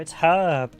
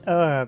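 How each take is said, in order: First: The word begins with a clear H sound. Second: The word begins with no H sound. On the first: The speaker calls it right. "No, it's herb" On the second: The speaker calls it wrong. "the Americans pronounce it with a silent H"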